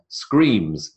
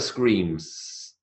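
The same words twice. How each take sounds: First: The word ends with a voiced z sound. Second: The word ends with a voiceless s sound. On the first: The speaker calls it right. "you're coming out with the sound of a z" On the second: The speaker calls it wrong. "It's never screams"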